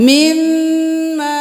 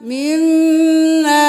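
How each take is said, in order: Both takes have the same delivery.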